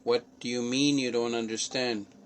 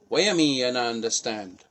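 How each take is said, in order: First: It is said in a standard English accent. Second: It is said in a Jamaican accent.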